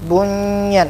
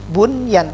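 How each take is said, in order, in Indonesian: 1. Huruf n menyatu dengan y berikutnya. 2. Huruf n dibaca jelas sebelum y. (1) "bunyan ini salah" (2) "Yang betul bunyan"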